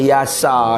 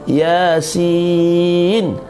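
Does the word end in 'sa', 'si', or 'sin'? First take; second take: sa; sin. First: The word ends with the syllable 'sa'. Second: The word ends with the syllable 'sin'. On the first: The speaker calls it wrong. "tak boleh" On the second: The speaker calls it right. "Dibaca dengan huruf lah"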